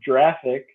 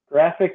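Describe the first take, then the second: First: It begins with a soft J sound. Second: It begins with a hard G sound. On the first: The speaker calls it wrong. "you don't call it graphic interchange format" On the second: The speaker calls it right. "because it stands for graphic interchange format"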